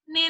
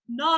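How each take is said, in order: First: The voice sounds strongly nasal. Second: The voice sounds clear, not nasal.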